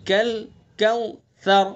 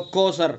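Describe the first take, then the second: First: Careful slow کوثر; correct recitation. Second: کوثر said the everyday Urdu way with a plain s; quick colloquial کوثر; wrong pronunciation. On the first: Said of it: "را کو نرمی سے". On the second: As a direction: careless کوثر, tha turned to s. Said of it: "یہ غلط ہو گیا". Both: Shown as a demonstration.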